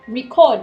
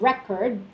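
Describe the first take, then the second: First: The stress is on the second syllable. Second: The stress is on the first syllable. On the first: It is used as a verb. "the stressing in the second syllable is usually the verb" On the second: It is used as a noun. "But if it's in the first one, record, it's the noun"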